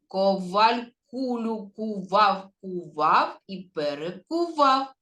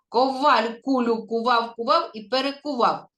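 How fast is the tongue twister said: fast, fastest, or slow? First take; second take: fast; fastest. First: It is said at a faster pace. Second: It is said at the fastest pace. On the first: "А тепер швидше" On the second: "А тепер ще швидше"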